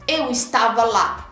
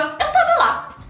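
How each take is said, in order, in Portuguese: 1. O verbo é dito por extenso como 'estava'. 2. O verbo é encurtado para 'tava'.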